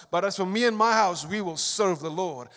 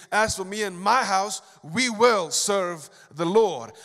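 First: Said in the usual way. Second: "will" leaned on, "serve the Lord" drawn out; slow, firm declaration. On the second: Retold or imitated. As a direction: lay down Joshua's vow slowly and firmly. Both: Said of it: "Joshua said".

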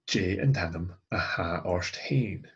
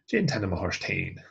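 First: "Hain" given the emphasis at the end; stress on Hain. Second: Shortened line, "Hain" emphasised; stress on Hain. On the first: Teacher showing the emphasis on yourself, stressing Hain. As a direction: lean on "Hain". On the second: Teacher repeating the shortened answer, stressing Hain. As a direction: lean on "Hain" in the short form. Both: Shown as a demonstration. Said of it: "giving the emphasis on yourself".

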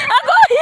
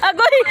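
First: Higher, louder yelp of surprise; surprised yelp. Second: Said in the usual way. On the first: Real, not acted. Exclaiming during the game.

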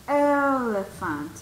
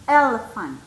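First: "Elephant" slowly stretched on the first E; vowel-sound demo. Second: Said in the usual way. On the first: Shown as a demonstration. Teacher shows students the vowel sound, "Elephant" slow and stretched. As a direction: draw out the opening vowel of "Elephant". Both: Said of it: "el sonido también de vocal".

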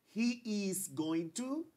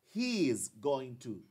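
First: Slow, "he" lifted high; slow long form. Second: Slow, "he" falling; slow repeat. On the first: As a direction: model the full form slowly. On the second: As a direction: repeat it slowly for the class. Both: Shown as a demonstration. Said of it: "Aquí yo digo".

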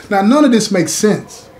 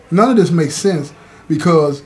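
First: Emphatic outburst. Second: Said in the usual way. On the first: Real, not acted.

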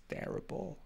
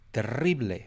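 First: Said in the usual way. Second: "Terrible" said the Spanish way; Spanish pronunciation. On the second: Real, not acted. Speaker mocking own accents, "Terrible" in Spanish. Switches to Spanish for same word.

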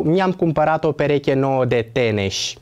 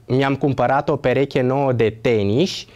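First: Teneș ending with E, falling; teneș pronounced with E; said wrongly. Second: Teniș ending with I, rising question; teniș pronounced with I; said correctly. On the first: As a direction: say teneș with E at the end of the sentence. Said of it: "nu cu E". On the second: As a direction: say teniș with I at the end of the sentence. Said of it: "Forma corectă este teniș cu I". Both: Shown as a demonstration.

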